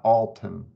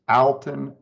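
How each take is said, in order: First: The first syllable does not sound like Al. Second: The first syllable sounds like the name Al. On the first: The speaker calls it wrong. "not Alton" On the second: The speaker calls it right. "It's Alton, think of it as Big Al"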